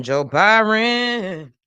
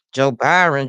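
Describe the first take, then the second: First: Drawn-out sing-song name. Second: Said in the usual way. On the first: Real, not acted. Repeating the news headline.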